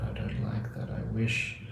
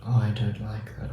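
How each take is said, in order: First: "I don't like that" whispered, much softer; whispered resisting inner voice. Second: Said in the usual way. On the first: Retold or imitated. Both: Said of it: "if you resist it".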